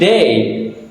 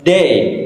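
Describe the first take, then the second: First: The word begins with a soft voiced th sound. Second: The word begins with a hard d sound. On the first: The speaker calls it right. "instead of saying they" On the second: The speaker calls it wrong. "the participant said they"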